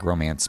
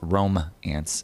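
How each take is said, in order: First: It is said quickly as one smooth word. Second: It is said slowly as two separate parts. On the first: It sounds like the word for a love affair. "if you say it quickly, it just sounds like romance" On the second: It names roaming ants. "but it's Rome-ants"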